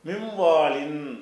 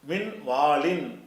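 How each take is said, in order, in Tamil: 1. n மூக்கொலியுடன் கலக்கிறது. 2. n ஒரு தெளிவான n ஆக ஒலிக்கப்படுகிறது. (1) "மூக்குனால சொல்லணும்" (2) "இன்னு என்று சொல்லாமல்"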